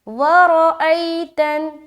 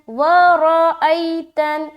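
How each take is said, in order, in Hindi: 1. r और glottal stop अलग-अलग बोले जाते हैं। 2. r और glottal stop अलग-अलग बोले जाते हैं।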